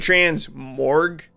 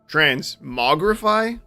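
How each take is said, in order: First: The R sound comes before the G sound. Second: The R sound comes after the G sound. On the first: The speaker calls it wrong. "I'm putting the R in the wrong spot" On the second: The speaker calls it right. "I think might be how it's actually supposed to be said"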